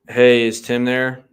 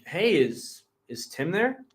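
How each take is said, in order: First: The tone sounds flat, not curious. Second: The tone sounds curious and interested.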